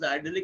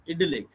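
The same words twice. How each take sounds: First: The word is said the American way. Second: The word is said the British way. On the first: "the American pronunciation is idyllic" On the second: "the British pronunciation is"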